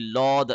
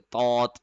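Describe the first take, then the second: First: The letter is said with a heavy L-like sound. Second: The letter is said with a hard T-like sound. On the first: "लामपुर करके यानी लौद ऐसे करके" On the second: "तौ की साउंड निकालते थे, तौत ऐसे करके, यानी बहुत सख्ती से"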